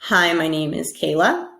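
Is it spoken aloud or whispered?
aloud. It is spoken in a normal voice.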